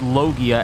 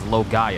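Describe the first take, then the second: First: The middle syllable sounds like 'gee'. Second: The middle syllable sounds like 'guy'. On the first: The speaker calls it right. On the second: The speaker calls it wrong.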